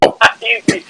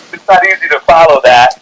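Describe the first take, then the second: First: Laughing. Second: Said in the usual way. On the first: Real, not acted.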